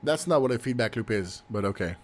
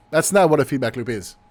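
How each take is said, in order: First: Quiet. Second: Said in the usual way. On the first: Real, not acted. Muttered aside, then repeated.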